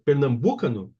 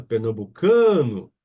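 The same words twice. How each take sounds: First: "pernambucano" wrongly stressed on "bu"; tônica errada em BU. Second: "pernambucano" with a loud, long "ca"; tônica em CA. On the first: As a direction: test "pernambucano" as per-nam-BU-cano. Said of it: "Será que é no bu". ("pernambucano" com força errada no "bu") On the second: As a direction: slowly punch and stretch "ca" in "pernambucano". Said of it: "A sílaba tônica é no can". ("pernambucano" devagar, com o "ca" forte e esticado) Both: Shown as a demonstration.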